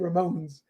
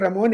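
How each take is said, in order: First: The name is said with an English pronunciation. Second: The name is said with a Spanish pronunciation. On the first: The voice assistant understands it. The speaker calls it wrong. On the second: The voice assistant does not understand it. The speaker calls it right. "if I say Ramones, It has no idea"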